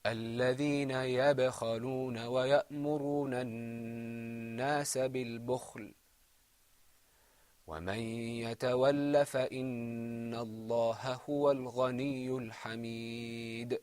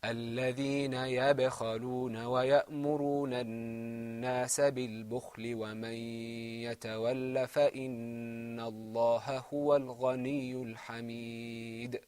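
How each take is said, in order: First: Chanted recitation with a clear stop after بالبخل; pause after bukhl. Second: Chanted straight through بالبخل ومن with no stop; no pause at all. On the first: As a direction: stop firmly on بالبخل, then resume. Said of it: "should be read like this". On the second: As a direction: run بالبخل into ومن without a breath. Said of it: "the less proper way to read this". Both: Shown as a demonstration.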